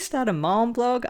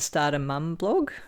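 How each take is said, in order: First: Mom is said with an American accent. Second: Mum is said with a non-American accent.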